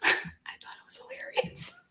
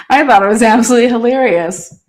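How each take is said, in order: First: Soft whispered aside through a laugh. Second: Said out loud, louder, after a laugh. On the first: Admitting the deer nuts prank was funny, whispered. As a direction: breathe it as a secret. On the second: Owning up that the prank was hilarious, louder. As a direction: declare it proudly. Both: Real, not acted.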